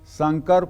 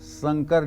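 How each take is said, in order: First: The word begins with an sh sound. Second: The word begins with an s sound. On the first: "श की जगह स लिखा हुआ है" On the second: "लिखा हुआ है"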